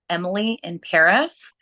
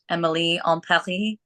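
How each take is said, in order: First: It is said in the speaker's plain accent. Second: It is said in a put-on French accent.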